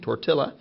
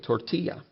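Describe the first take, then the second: First: The double L is pronounced the English way. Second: The double L is pronounced the Spanish way. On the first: "Instead of saying tortilla" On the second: "we keep it the Spanish way"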